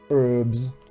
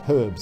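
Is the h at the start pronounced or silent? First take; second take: silent; pronounced. First: It is said the American way, without the h. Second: It is said the British way, with the h.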